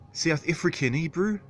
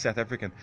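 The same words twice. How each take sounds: First: High-pitched mock New Zealand accent; mistaken New Zealand accent. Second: Said in the usual way. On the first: Attempting South African for the chat, high New Zealand accent. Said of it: "No, that's New Zealander, sorry". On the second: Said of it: "So what's South African?".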